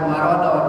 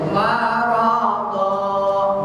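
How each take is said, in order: First: The final vowel is short. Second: The final vowel is held long. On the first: The speaker calls it wrong. "Jadi bukan marodon" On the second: The speaker calls it right. "Dua harakat"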